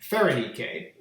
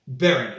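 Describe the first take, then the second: First: The name begins with a P sound. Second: The name begins with a B sound. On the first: This is how a Greek speaker would say it. "A Greek would call that" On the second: This is how a Macedonian speaker would say it. "a Macedonian would call it"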